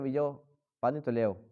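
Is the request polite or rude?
polite. It is said in a soft, polite tone.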